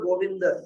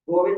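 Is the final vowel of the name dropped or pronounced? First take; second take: pronounced; dropped. First: The name ends with a full final vowel sound. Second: The name ends on a consonant, final vowel dropped. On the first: This is the full Sanskrit way of saying it. "Sanskrit में यदि बोलना हो तो गोविंद बोलना पड़ता है" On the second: This is the everyday Hindi way of saying it. "Hindi में तो गोविंद बोल देते हैं"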